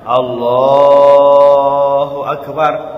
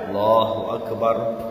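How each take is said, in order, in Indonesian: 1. Kata Allah dibaca panjang. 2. Kata Allah dibaca pendek. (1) "pelungguh panjangkan Allahnya" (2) "jangan terlalu panjang"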